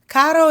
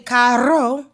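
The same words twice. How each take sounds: First: The R is a soft single tap. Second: The R is rolled strongly. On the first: The speaker calls it right. "you're going to be really soft with that R" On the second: The speaker calls it wrong. "You're not going to say caro"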